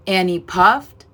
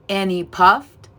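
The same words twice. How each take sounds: The two takes are said the same way.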